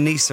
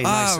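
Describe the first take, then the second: First: The first vowel sounds like 'ee'. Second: The first vowel sounds like 'eye'. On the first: The speaker calls it wrong. "I've been pronouncing it wrong" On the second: The speaker calls it right. "that's how you say it"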